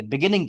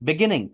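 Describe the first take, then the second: First: beginning with the beat in the middle; second-syllable stress. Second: beginning with the beat moved to the front; first-syllable stress. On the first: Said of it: "हम जोर दें अगर बोलते हुए". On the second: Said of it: "पहली syllable पे stress होगी". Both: Shown as a demonstration.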